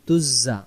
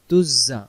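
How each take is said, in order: First: The doubled consonant is a 'z' sound. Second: The same.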